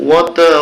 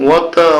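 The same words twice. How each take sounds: Both takes have the same delivery.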